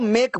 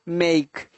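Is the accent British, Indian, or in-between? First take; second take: Indian; in-between. First: It is said with an Indian accent. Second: It is said between Indian and British accents. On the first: "Indian लोग जो हैं वो मेक को मेक बोलते हैं" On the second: "थोड़ा सा इसको बीच का ले लो"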